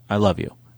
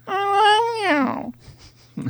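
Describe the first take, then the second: First: It is said in a normal human voice. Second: It is said imitating a cat's voice.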